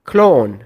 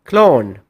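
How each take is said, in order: The two takes are said the same way.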